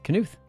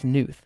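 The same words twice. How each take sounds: First: The word starts with a K sound. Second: The word starts with an N sound. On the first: The speaker calls it right. "the K is pronounced. ... it is. It's Knuth" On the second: The speaker calls it wrong. "I think it's Knuth without the K. I think the K is silent"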